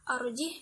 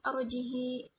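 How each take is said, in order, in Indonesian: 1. Kata ini berakhir dengan bunyi h saja. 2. H di akhir diikuti 'ee' panjang.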